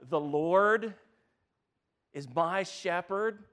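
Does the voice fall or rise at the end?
rises. It is said as a question, rising.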